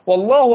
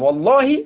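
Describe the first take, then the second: First: The word ends with a u vowel. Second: The word ends with an i vowel. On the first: God is the subject of the statement. "قال والله بالرفع لأن هنا الكلام عن الله" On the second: It is an oath sworn by God. "يبقى الأولى مخفوضة لأنها قسم"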